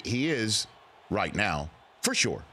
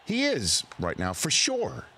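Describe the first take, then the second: First: Slow "right now for sure" leaning on "for"; stress on FOR SURE. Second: HE punched at the start of "He is right now for sure."; stress on HE. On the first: Host testing the other reading, stress on FOR SURE. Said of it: "Or does he say". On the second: Host testing where the stress goes, stress on HE. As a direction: lean on "He" and let the rest fall. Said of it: "What did he say?". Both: Shown as a demonstration.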